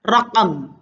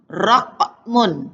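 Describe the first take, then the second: First: The word ends bare, without final vowel. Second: The word ends with a vowel and n.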